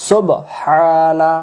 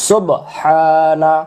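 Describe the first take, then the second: No difference in how they are said.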